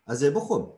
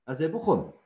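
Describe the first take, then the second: Both takes have the same delivery.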